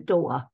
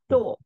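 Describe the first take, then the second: First: It is said in a London accent. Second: It is said in a posh RP accent.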